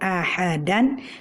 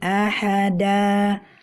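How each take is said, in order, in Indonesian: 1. Kata ini berakhir dengan vokal pendek lalu n. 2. Kata ini berakhir dengan vokal yang dipanjangkan, tanpa n.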